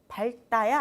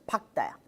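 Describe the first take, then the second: First: The consonant before 다 is not a k sound. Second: The consonant before 다 is a k sound. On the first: The speaker calls it wrong. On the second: The speaker calls it right.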